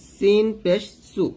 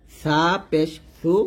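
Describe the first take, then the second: First: সিন পেশ সু slowly with sharp s; thin hissed s. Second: সা পেশ সু slowly, lisped th for স; tongue on upper teeth. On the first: Teacher spelling out the vowel, সু with thin s. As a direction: keep সু thin and hissed, slightly raised. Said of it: "নিচে দাঁতের সাথে লাগিয়ে পাতলা করে". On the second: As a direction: make সু sound like 'thu'. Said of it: "জিহ্বার আগাটা উপরে দাঁতে লাগবে". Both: Shown as a demonstration.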